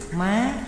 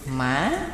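First: The pitch rises sharply to high. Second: The pitch rises with a break in the voice. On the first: "thượng thanh, thí dụ má, dấu sắc" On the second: "Khứ thanh, thí dụ mã, dấu ngã"

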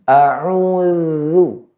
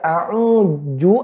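First: The middle consonant is a voiced th sound. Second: The middle consonant sounds like j. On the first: I seek refuge. The speaker calls it right. "ujung lidah ketemu dengan ujung gigi atas" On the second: The word has no meaning. The speaker calls it wrong. "tidak ada artinya a'uju"

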